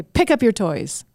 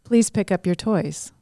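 First: Edgy. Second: Polite please. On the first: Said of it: "that's got some edge to it". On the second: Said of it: "It's very different". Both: Shown as a demonstration.

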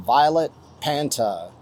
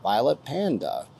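First: "Panta" said with a T, pan-tuh; misread name. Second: "Panda" said with a clear D, pan-duh; corrected name. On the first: Streamer reading a donor name aloud, misreads it as "Panta". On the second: Streamer correcting a donor name he misread, "Panda" with a D. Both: Real, not acted. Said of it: "Say it right for the little teleprompter".

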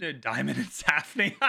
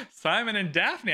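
First: "Diamond and Safney" tripped over with a laugh, the names mangled; flubbed names. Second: Said in the usual way. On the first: Real, not acted. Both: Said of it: "I'm keeping that in".

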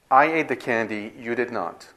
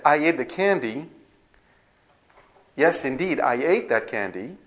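First: Conflict, contrasting. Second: Bright, rising affirmation of I ate the candy; a teacher affirms I ate the candy without conflict; affirming. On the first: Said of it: "say its opposite". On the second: A teacher shows students a plain affirming tone. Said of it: "the emotional tonality is different". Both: Shown as a demonstration.

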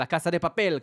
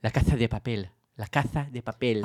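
First: Argentine Spanish with a plain s in Casa; Argentine Spanish accent. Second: Lisped Castilian Spanish, the s as th, drawn out on repeat; childlike lisping Spain Spanish, low-pitched; Castilian Spanish accent. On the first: Showing how it should be said, Argentine Spanish accent. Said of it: "בספרדית של ארגנטינה". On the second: Showing the host how Spaniards talk, Castilian lisping accent. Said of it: "הם מדברים כמו ילדים". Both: Shown as a demonstration.

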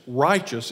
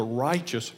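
First: "righteous" repeated with louder emphasis; stress on righteous. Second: Said in the usual way. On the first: Shown as a demonstration. Preacher underlines a Bible word, louder stress on "righteous". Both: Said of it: "emphasize on that word".

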